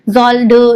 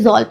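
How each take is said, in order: First: The word ends with a pronounced d sound. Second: The word ends without any d sound. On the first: The speaker calls it wrong. "जॉल ड नहीं पढ़ेंगे" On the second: The speaker calls it right. "जॉल पढ़ेंगे"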